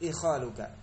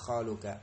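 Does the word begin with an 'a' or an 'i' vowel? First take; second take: i; a. First: The word begins with an 'i' vowel. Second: The word begins with an 'a' vowel. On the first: This is the form most used by Arabs. "ikhaluka dengan kasrah" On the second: This is the form by regular analogy. "Kalau secara qiyas jadi fathah"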